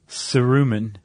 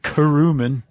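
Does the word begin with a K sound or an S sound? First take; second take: S sound; K sound. First: The word begins with a soft S sound. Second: The word begins with a hard K sound.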